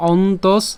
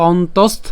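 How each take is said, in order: First: "অন্তস" stopping at the dental s; ending on s. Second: "অন্তস্থ" with a final st; ending on t. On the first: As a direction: say "অন্তস" with no t after the final s. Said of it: "দন্তস পর্যন্ত উচ্চারণ করতে পারি". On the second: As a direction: carry "অন্তস্থ" through to a t after the s. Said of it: "অথবা অন্তস্থ পর্যন্ত উচ্চারণ করতে পারি". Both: Shown as a demonstration.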